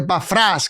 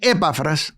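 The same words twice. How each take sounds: First: The stress is on a later syllable. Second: The stress is on the first syllable. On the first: "con acento en la A" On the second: "con acento en la E"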